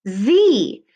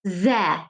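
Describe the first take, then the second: First: Z said as the letter name with a long E; Z, rhyming with see; long E ending. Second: Ze said with a short schwa ending; ze, not the letter name; a quick ze with a weak vowel; short ending sound. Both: Shown as a demonstration. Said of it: "why does this say Z and not".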